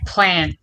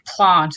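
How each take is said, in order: First: It is said with an American-style vowel. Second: It is said with an English-style vowel. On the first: "it is natural to me, which is more American" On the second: "English people say plant"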